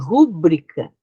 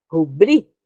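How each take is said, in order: First: The stress is on the first syllable. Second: The stress is on the second syllable. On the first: The speaker calls it wrong. "As pessoas dizem rúbrica" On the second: The speaker calls it right. "Essa aqui é a sílaba mais forte"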